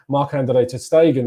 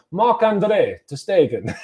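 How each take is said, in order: First: Marc-Andre ter Stegen said the Spanish way, a slip of a Spanish accent. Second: A slower, corrected "Marc-Andre ter Stegen" with German sounds; German pronunciation. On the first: Real, not acted. Fan previewing Arsenal wages slips, names keeper in Spanish accent. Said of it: "I pronounced that in a Spanish accent". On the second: Shown as a demonstration. Fan correcting himself, says the German keeper's name German-style. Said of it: "as a solid German".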